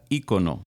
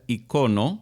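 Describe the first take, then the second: First: The stress is on the first syllable. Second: The stress is on the second syllable. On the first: This is the form used in the Americas. "en las Américas es palabra esdrújula ícono" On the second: This is the form used in Spain. "en España se pronuncia icono"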